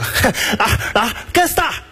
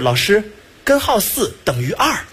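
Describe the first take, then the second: First: The syllables are heavily swallowed and run together. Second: Every syllable is pronounced clearly and in full. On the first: "已经开始吃字啊" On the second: "他说的是"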